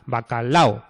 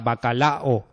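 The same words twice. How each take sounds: First: The final a and o merge together. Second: The final a and o are split apart. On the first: The speaker calls it right. "se forma un diptongo ahí" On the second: The speaker calls it wrong. "aquí no hay nadie que diga bacalao"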